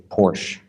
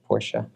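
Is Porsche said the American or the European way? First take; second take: American; European. First: It is said the American way. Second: It is said the European way. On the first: "Sometimes in America they just say Porsche" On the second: "Am I pronouncing that right? Europeans, is that okay?"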